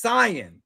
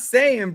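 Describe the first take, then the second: First: It uses the original Japanese pronunciation. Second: It uses the English dub's pronunciation. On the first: The speaker calls it right. "It's Saiyan" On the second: The speaker calls it wrong. "It's not Saiyan, brother"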